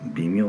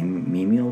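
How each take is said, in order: First: The word is given its everyday reading. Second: The word is given its Buddhist reading. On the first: This is the ordinary reading of the word. The speaker calls it wrong. "仏教用語では微妙と読まずに" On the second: This is the reading used as a Buddhist term. The speaker calls it right. "微妙と読むんですけどね"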